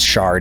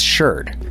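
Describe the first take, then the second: First: The vowel is an open 'ar' sound. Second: The vowel is an 'er' sound. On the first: This is how it is said outside America. "I know it's pronounced shard in other places" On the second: This is how it is said in American archaeology. "in American archaeology, it's sherd"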